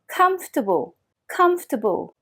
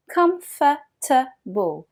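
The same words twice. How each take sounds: First: Comfortable compressed to three syllables, kumf-tuh-bl; comfortable squeezed, the middle syllables nearly gone; native comfortable. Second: Comfortable with every syllable said the French way; comfortable spelled out French-style, each syllable full. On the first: Teacher modelling the native way, compressed. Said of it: "mais les natifs disent". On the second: Teacher imitating the French learner's mistake, full syllables. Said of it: "Énormément de Français disent". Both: Shown as a demonstration.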